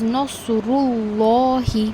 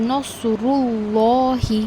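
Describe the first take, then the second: First: The l sound is heavy and full. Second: The l sound is heavy and full.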